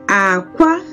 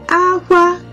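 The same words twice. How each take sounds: First: The pitch starts low, then goes high. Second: Both syllables are on a high pitch. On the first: It means egg. "it started low... and then it went off high" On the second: It means cry. "it's high all through"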